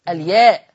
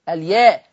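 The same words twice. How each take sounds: No difference in how they are said.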